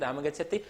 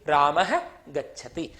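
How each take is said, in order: First: The first word ends without a breathy h. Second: The first word ends with a breathy h.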